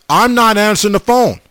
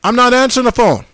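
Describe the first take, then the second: First: "phone" gets the weight, a fairly even line; stress on phone. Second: "not" punched high, the line said higher; stress on NOT. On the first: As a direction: lean on "phone" and let it fall. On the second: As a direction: hit the word "not" hard and high. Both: Shown as a demonstration.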